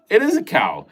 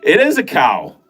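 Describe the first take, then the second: First: "is" higher and lighter, falling; higher repeat. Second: "is" appuyé, chute finale; stress on is. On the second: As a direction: lean on "is" and let it fall. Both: Shown as a demonstration.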